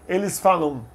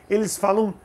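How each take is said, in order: Both takes have the same delivery.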